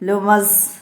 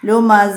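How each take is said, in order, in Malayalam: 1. ഈ വാക്ക് s ൽ മുറിഞ്ഞാണ് നിൽക്കുന്നത്. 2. ഈ വാക്ക് നീണ്ട a സ്വരത്തിലാണ് അവസാനിക്കുന്നത്. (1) "ലുമസ് എന്ന് പറഞ്ഞ് വഖഫ് ചെയ്യാതെ" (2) "അവിടെ അലിഫാണ് വരുന്നത്"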